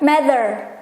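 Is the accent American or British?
American. It is said in an American accent.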